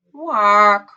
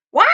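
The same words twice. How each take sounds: First: One long, falling quack; drawn-out, dejected goose call; sad quack. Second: Short, happy goose call; a quick, cheerful quack. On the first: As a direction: let a loud quack sag in disappointment. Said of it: "She was very sad". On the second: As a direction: give one short happy honk of a word. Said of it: "she shouted happily". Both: A narrator's reading.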